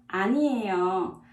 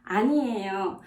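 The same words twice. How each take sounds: First: Quick model. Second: Said in the usual way. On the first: Shown as a demonstration. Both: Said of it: "In Korean".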